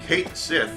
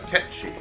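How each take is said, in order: First: The name is said as 'Kate' then 'Sith'. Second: The name is said as one word ending 'chee'. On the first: The speaker calls it right. "is actually the correct pronunciation" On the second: The speaker calls it wrong. "since that time, pronounced it uh"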